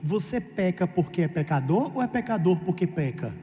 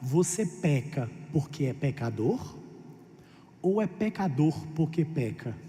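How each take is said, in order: First: The sentence is spoken at a normal, quicker pace. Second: The sentence is spoken more slowly and deliberately.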